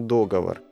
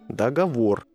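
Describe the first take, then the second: First: The stress is on the first syllable. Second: The stress is on the last syllable. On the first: The speaker calls it wrong. "ни в коем случае не договор" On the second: The speaker calls it right. "И только договор"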